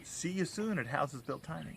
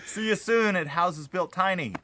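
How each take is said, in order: First: It is said flatly, without much feeling. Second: It is said with conviction and enthusiasm.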